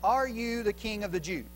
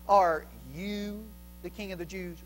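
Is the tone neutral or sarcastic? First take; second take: neutral; sarcastic. First: It is said in a plain, neutral tone. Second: It is said in a mocking, sarcastic tone.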